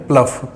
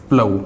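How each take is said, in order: First: प्लफ said with a final f, the mistaken way; प्लफ as plaf, wrongly ending in f; wrong plough. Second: प्लव said plau, ending on the au vowel, no f; प्लव as plau, no final f; correct plough. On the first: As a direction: show the error: प्लफ ending in f. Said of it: "तो वो आपका wrong हो जाएगा". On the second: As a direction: give the right form प्लव, open au at the end. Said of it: "इसका जो sound होता है वो होता है". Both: Shown as a demonstration.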